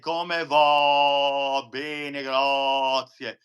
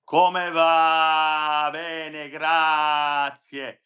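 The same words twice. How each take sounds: First: The vowels sound dark and pulled back into the throat. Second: The vowels sound forward and open in the mouth. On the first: The speaker calls it wrong. "We'd never say" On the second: The speaker calls it right. "we would say"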